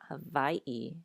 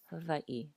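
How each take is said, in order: First: The v is strong and buzzing, like English. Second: The v is light and soft, barely buzzing. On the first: The speaker calls it wrong. "So not Hawaii" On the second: The speaker calls it right. "it is a softer V than in English"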